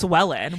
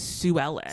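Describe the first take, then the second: First: The name is said fast, run together. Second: The name is said at normal pace, two parts. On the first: "when you say it fast" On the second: "her name is Sue Ellen"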